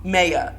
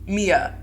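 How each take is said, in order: First: The first vowel sounds like 'eye'. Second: The first vowel sounds like 'ee'. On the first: The speaker calls it right. "How do you pronounce Maya wrong?" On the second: The speaker calls it wrong. "all the freaking time"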